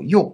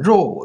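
First: It is said Guangdong-style, starting with y. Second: It is said the standard way, starting with r.

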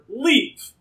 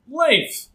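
First: The name is said the American way. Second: The name is said the non-American way. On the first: The speaker calls it wrong. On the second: The speaker calls it right.

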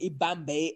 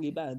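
First: It is said in an anglicized way, like 'Bombay'. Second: It is said with a native Zulu pronunciation. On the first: The speaker calls it wrong. "they said ibambe" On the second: The speaker calls it right. "instead of saying ibambe"

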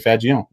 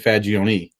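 First: The final vowel is dropped. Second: The final vowel is pronounced. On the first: "There are some that don't" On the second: "as an Italian, we always pronounce our last vowel"

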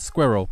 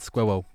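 First: It is said in a native English accent. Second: It is said in a thick German accent.

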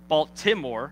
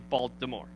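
First: The middle consonant is a clear T sound. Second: The middle consonant sounds like a D. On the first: "We don't say Baltimore" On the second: "we say Baltimore, okay? With a D"

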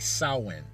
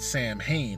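First: It is given the native Irish pronunciation. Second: It is given a literal English reading pronunciation. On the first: The speaker calls it right. "is actually Samhain. It's an Irish word" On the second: The speaker calls it wrong. "what looks to be is the word Samhain"

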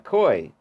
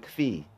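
First: The word sounds like 'koy'. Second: The word sounds like 'kvee'. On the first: "A koi" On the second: "or some people pronounce it a kfi"

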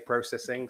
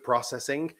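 First: It is said with a British accent. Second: It is said with an American accent. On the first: The speaker calls it right. "I really should say processing" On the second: The speaker calls it wrong. "drink when I slip into an American accent"

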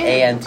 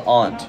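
First: It sounds like the insect 'ant'. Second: The vowel is a broad 'ah' sound. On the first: The speaker calls it wrong. "It's not aunt. A-N-T" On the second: The speaker calls it right. "It's spelled aunt"

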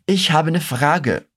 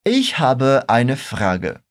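First: The word eine is shortened to ne. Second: The word eine is said in full. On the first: It sounds more colloquial. "comerem esse ai do começo da palavra e acabam falando apenas ne" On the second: It sounds more polite. "pode pronunciar direitinho o eine"

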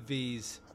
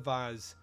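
First: The word is said in an American accent. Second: The word is said in a British accent. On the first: The speaker calls it wrong. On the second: The speaker calls it right.

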